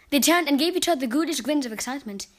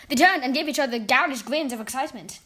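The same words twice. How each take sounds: First: Ghoulish said as GOO-lish; corrected ghoulish. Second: Ghoulish said as GOW-lish; ghoulish misread. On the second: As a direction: ghoulish with the vowel of cow. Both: Real, not acted. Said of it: "Ghoulish grins, not ghoulish grins".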